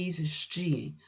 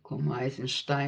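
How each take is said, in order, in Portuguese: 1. O nome é pronunciado de um jeito russo. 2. O nome é pronunciado de um jeito parecido com o alemão. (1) "mas o nome dele é Eisenstein, que ele não é alemão" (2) "Muita gente pronuncia o nome dele é, como Eisenstein"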